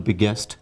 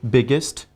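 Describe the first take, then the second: First: The ending is pronounced with a clear 'est' vowel. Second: The ending is pronounced with a reduced 'ist' vowel. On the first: The speaker calls it wrong. "people often pronounce the superlative form uh, with st as est. ... That is wrong" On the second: The speaker calls it right. "Est should be pronounced as ist"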